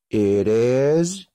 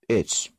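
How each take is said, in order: First: It is said as two full words. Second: It is said as one contracted syllable.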